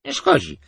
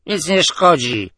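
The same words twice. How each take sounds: First: Tipsy mumbled repeat; drunken repeat. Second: Loud, slow, higher tipsy reply; drunken blurt. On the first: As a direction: shrug it off, still drunk. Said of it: "wypalił". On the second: Staggering drunk answering the admiral, slow and loud. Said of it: "zachwiał się ... wypalił". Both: A narrator's reading.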